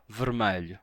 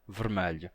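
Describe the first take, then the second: First: It is said in the Lisbon way, with an A sound. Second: It is said in the Lisbon way, with an A sound.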